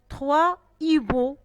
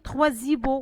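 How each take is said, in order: First: The words are separated with no linking z-sound. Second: A z-sound links the first word to the second. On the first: The speaker calls it right. "On n'a pas mis la liaison" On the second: The speaker calls it wrong. "On n'a pas dit"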